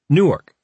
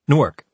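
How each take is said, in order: First: It is said slower, with two distinct syllables. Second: It is said fast and clipped, without stress. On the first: This is how people near the Delaware town say it. The speaker calls it wrong. "which we called Newark in our hybrid tri-state dialect" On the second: This is how a local from the New Jersey city says it. The speaker calls it right. "He pronounced the city name very fast and with no accented syllables"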